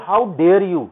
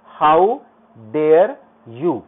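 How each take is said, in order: First: Said in the usual way. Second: "how dare you" word by word, "how" and "dare" swept upward; loud, separated words in "how dare you", climbing; rising tone demo. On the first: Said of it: "जैसे अगर मैं एक line को बोलूं". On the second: Shown as a demonstration. Teacher shows intonation to class, "how dare you" in loud rising steps. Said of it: "इसको हम rising tone में बोलेंगे".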